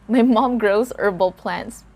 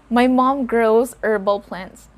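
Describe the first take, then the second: Both takes have the same delivery.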